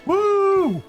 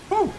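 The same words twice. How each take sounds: First: A longer, drawn-out woo. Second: A short woo.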